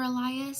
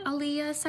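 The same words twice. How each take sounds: First: "Elias" as eh-LIE-us, with an "eye" in the middle; alternative pronunciation. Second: "Elias" as eh-LEE-us, with an "ee" in the middle; first pronunciation. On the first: Host offering the other version of the name, "Elias" said eh-LIE-us. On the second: Host greeting a birthday viewer, "Elias" said eh-LEE-us. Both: Real, not acted. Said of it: "sorry if I mispronounced your name".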